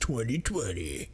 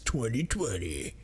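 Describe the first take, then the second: First: It is said in a grand epic voice. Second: It is said in a grand epic voice.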